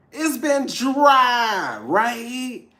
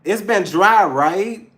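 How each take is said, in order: First: Very slow, high, loud shout; drawn-out shout. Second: Said in the usual way. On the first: Acted. Tarot reader shouting the joke back to viewers, slow and high. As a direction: stretch it out in a big playful yell. Repeats the line louder.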